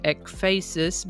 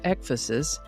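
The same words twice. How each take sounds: First: It does not follow the pattern of 'emphasis'. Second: It sounds like 'emphasis' starting with 'ek'. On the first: This is how the speaker would have guessed it. The speaker calls it wrong. "I would have pronounced it ekphasis" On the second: This is how pronunciation guides give it. The speaker calls it right. "sort of like emphasis, only with an ek instead of an m"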